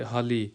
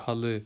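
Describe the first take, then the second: First: حلی with a thin ee at the end, ha-lee. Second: حل with a short uh at the end, ha-lı; dotless-i ending. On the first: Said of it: "پتلی آواز کر دیں گے اینڈ پہ آئی کی طرح". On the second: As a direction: keep the end of حل dull, not ee. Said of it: "ہم اس کی جو ہے وہ پتلی آواز". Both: Shown as a demonstration.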